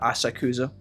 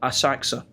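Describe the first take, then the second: First: The vowel after the k is fully voiced. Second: The vowel after the k is dropped.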